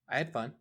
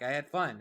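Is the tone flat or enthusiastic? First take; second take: flat; enthusiastic. First: It is said in a flat, unexcited tone. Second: It is said in an enthusiastic tone.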